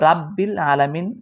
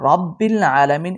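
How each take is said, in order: First: The first syllable is light and thin. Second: The first syllable is heavy and full. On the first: The speaker calls it wrong. "কেউ রাব্বিল আলামিন পরে থাকেন পাতলা করে" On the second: The speaker calls it right. "এটা একটু মোটা করে পড়বেন"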